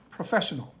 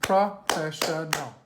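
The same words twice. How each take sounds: First: Said in the usual way. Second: "Professional" slowly split as pro, fesh, un, ul; syllable by syllable. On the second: Shown as a demonstration. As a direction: sound out "Professional" in four slow, separate beats. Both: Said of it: "we're gonna count the syllables".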